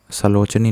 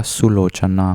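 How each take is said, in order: First: सलोचनी with short 'sa' and final '-ni'; wrong form. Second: सुलोचना slowly, with 'su' and final '-naa'; careful, slow सुलोचना, opening on 'su'; correct form. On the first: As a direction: say the mistaken सलोचनी, 'sa' first, ending in 'nee'. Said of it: "सलोचनी नहीं होता". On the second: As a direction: spell out सुलोचना by ear, 'su' first, ending in long 'naa'. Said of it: "सुलोचना होता है". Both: Shown as a demonstration.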